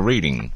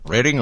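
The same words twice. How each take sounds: First: "Reading" said REED-ing; "Reading" as in reading a book; long-e Reading. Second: "Reading" said RED-ing; "Reading" rhyming with "wedding"; short-e Reading. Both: Shown as a demonstration. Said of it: "always confused about that".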